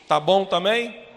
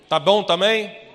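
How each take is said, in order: The two takes are said the same way.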